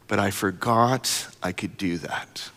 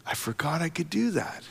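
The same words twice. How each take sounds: First: Put-on child's words. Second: Hushed echo. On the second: Shown as a demonstration. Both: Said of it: "repeats child's line".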